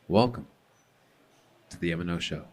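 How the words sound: It is said in a dark, ominous tone.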